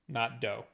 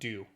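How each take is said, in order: First: The last syllable rhymes with 'Nintendo'. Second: The last syllable rhymes with 'who'. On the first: The speaker calls it wrong. "eight bit dough because it makes sense to be like Nintendo" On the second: The speaker calls it right. "it says eight bit uh, do, not dough"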